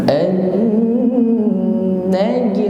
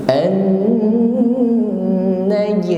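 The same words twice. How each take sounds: Both takes have the same delivery.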